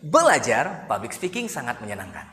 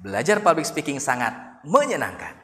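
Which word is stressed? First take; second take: belajar; menyenangkan. First: The stress falls on the word belajar. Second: The stress falls on the word menyenangkan. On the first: "kalau kita tekan di bagian belajarnya" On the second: "dikata ujungnya, menyenangkan"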